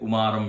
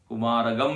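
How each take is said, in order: First: The ending is pronounced as a plain 'm' sound. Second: The ending is pronounced with a 'gam' sound. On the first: "कुमारम भी पढ़ सकते" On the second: "कुमारगम भी पढ़ सकते"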